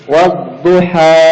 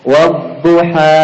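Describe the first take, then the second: The two takes are said the same way.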